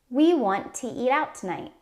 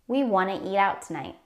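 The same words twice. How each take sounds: First: Want to is said as two full words. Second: Want to is shortened to wanna. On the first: "We want to eat out tonight turns into" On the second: "Wanna is a casual or shortened way to say want to"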